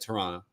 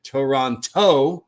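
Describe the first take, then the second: First: The second T sound is dropped. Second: The second T sound is clearly pronounced. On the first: The speaker sounds like a local. The speaker calls it right. "people don't pronounce the second T" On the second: The speaker sounds like an outsider. The speaker calls it wrong. "decided to pronounce it Toronto"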